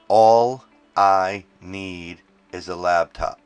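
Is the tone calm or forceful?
forceful. It is said forcefully, with more attitude.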